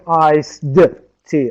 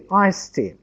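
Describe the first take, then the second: First: The final sound of iced is pronounced. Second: The final sound of iced is dropped. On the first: The speaker calls it wrong. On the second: The speaker calls it right.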